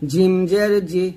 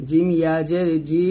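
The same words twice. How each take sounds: First: Said in the usual way. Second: জি with its vowel held one beat; long vowel. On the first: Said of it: "শুধু জের থাকলে এটা হরকত টান দেওয়া যাবে না". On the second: Shown as a demonstration. Teacher showing the lengthened ee to pupils. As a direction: draw out the final জি. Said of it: "এক লিপ টান দিবেন".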